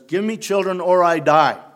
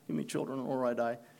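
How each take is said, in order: First: It is said forcefully, like an exclamation. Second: It is said calmly and plainly.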